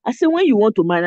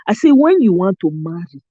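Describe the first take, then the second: First: Nigerian accent, quick and firm; Naija accent. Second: Nigerian accent, heavy intonation; Naija accent. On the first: To the American brothers on the live, in Naija accent. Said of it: "I was saying it like I'm saying it right now". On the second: Retelling her talk on the live, Naija accent. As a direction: lean into the Naija tune. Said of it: "with all the Naija accent, intonation". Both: Shown as a demonstration.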